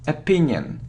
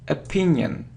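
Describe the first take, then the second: First: The word starts with an 'a' sound. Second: The same.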